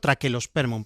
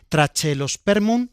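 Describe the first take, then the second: First: The middle consonant is a hard k sound. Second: The middle consonant is a ch sound. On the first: "Correctamente habría que decirlo Traquelospermum" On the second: "yo pronuncio la che"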